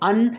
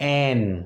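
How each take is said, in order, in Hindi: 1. स्वर छोटा और कमज़ोर है, जैसे un। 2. स्वर पूरा और साफ़ है, जैसे an। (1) "स्पीकिंग में भी हम इसे बोलते हैं अन" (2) "और स्ट्रॉन्ग एन"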